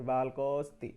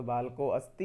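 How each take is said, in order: First: बालकोस्ति as one word, अ dropped after को; near-silent अ. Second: बालको अस्ति with the अ of अस्ति fully sounded; full अ, separate words. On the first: Teacher contrasting two forms, अ almost silent in बालकोस्ति. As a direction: join को straight onto स्ति in बालकोस्ति. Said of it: "थोड़ा सा silently अ होता है". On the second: Teacher contrasting two forms, full अ in बालको अस्ति. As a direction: keep बालको and अस्ति apart, clear अ between. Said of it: "ये तो बालको अस्ति है". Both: Shown as a demonstration.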